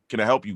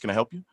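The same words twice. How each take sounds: First: It is said in his ordinary, natural voice. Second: It is said in a put-on, polite business voice. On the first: He is being himself. The speaker calls it right. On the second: He is putting on a professional front. The speaker calls it wrong. "you had to change your voice to talk to um as a business call"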